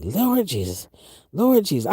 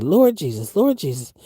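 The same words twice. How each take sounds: First: Grandmother praying. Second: Said in the usual way. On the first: Retold or imitated. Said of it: "my grandmother used to say that". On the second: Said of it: "I was like".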